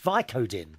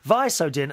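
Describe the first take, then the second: First: The middle consonant sounds like a K. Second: The middle consonant sounds like an S. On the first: The speaker calls it right. "The C in Visodin is, is pronounced like a K" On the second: The speaker calls it wrong. "I kept pronouncing it wrong"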